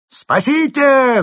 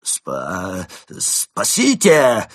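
First: Very high, very loud, drawn-out holler; gleeful top-of-the-voice scream; full-throated yell. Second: Strained, stuttered scream; squeezed-out cry for help. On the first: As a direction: bellow it out with gusto. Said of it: "заорал разбойник". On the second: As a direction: force out a stammered yell for help. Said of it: "выдавил из себя Крот". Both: A narrator's reading.

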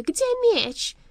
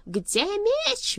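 First: Very high, loud panicked question; alarmed demand. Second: High, loud furious roar. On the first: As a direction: cry out in sudden dread. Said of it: "задрожав от ужасного предчувствия". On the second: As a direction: roar the demand. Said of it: "взревел Сагород". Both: A narrator's reading.

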